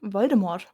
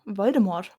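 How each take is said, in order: First: The name is said with German pronunciation. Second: The same.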